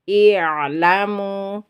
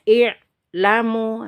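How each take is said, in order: First: The throat sound flows halfway, partly held. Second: The throat sound is pressed hard and stopped. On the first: The speaker calls it right. "kalau dia sudah mengalir seperti itu berarti sudah benar" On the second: The speaker calls it wrong. "Kalau kita menekan, dia tidak akan mengalir"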